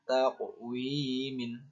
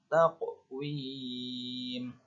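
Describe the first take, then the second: First: The word ends with an added -in sound. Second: The word ends on the m sound. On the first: The speaker calls it wrong. "tidak dibaca taqwimin" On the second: The speaker calls it right. "huruf yang di akhir kalimat menjadi sukun"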